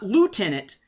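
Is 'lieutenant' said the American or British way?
American. It is said with an American pronunciation. "not Lieutenant"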